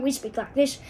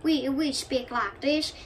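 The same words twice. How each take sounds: First: Put-on American Western accent; a slightly brisker cowboy-country Western accent. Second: Slow put-on Southern accent. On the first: Comparing Western with Southern, Western accent. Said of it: "in the Western". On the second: Comparing Southern and Western accents, slow Southern accent. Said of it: "Western is a little more speedy". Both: Shown as a demonstration.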